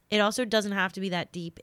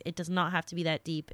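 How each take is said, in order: First: Said in the usual way. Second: "not" pressed firmly, the line a touch faster; firm repeat landing on "not"; stress on NOT. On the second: Shown as a demonstration. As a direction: lean on "not" to insist.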